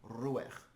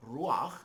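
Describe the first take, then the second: First: "ruach" the Yiddish way, second vowel reduced to uh; Yiddish pronunciation. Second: "ruach" the Hebrew way, clear ah before the kh; modern Hebrew pronunciation. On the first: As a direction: say "ruach" as ROO-ekh, with a weak second vowel. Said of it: "In Yiddish we say". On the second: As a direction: say "ruach" as roo-AKH, with a full open a. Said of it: "how it's pronounced in modern Hebrew". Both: Shown as a demonstration.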